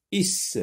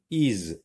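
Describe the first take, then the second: First: Is high, ending in a hissed s; S sound ending. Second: Is ending in a voiced z; Z sound ending. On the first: Teacher rejecting one for circling, Is with an S sound. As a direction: finish Is on a sharp sss. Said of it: "Je n'entoure pas". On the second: Teacher checking which to circle, Is with a Z sound. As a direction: buzz the end of Is. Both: Shown as a demonstration.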